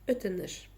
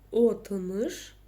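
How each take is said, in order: First: The word begins with an 'e' vowel sound. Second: The word begins with an 'o' vowel sound. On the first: The speaker calls it right. "у нас остается вот этот звук «э»" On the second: The speaker calls it wrong. "Пробуем прочитать через «о», не то"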